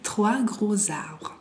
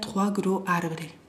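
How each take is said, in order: First: A z sound links gros to arbres. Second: No z sound links gros to arbres. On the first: The speaker calls it right. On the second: The speaker calls it wrong. "Si no, yo lo diría trois gros arbres. No"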